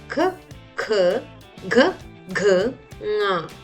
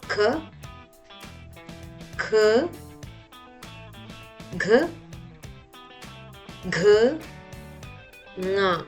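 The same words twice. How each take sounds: First: The letters are said fast. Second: The letters are said slowly.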